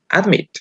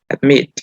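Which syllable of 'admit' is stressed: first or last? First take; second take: first; last. First: The stress is on the first syllable. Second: The stress is on the last syllable. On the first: The speaker calls it wrong. "No admit. Uh -uh" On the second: The speaker calls it right. "la mayor fuerza de voz está en la última sílaba"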